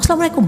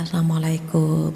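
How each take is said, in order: First: The greeting is said in a sharp, angry tone. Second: The greeting is said in a soft, gentle tone. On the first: The couple is quarrelling. The speaker calls it wrong. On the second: The wife warmly sees her husband off. The speaker calls it right.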